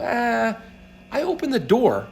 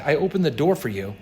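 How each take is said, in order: First: High-pitched offhand dismissal; a higher, self-minimizing "it was nothing" voice; small-role shrug. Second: Said in the usual way. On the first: Acted. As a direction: play it small, high and modest. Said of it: "play this small role and go".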